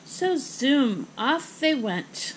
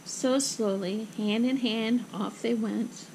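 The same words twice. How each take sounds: First: Lively send-off, stretched-out words; zooming off. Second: Slow, measured narration; slow and subdued. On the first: Narrator sends pair to next outing, zooming energy. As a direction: launch them off with a drawn-out zoom. Narrator zooms characters onward. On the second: Mother and daughter walk home, slow gentle narration. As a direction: ease through it slowly, winding down. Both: A narrator's reading.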